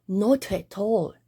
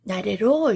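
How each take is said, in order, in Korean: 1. 영국 억양으로 말했어요. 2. 미국 억양으로 말했어요. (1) "영국 사람들은 not at all 이렇게 말합니다" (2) "이렇게 말하는데"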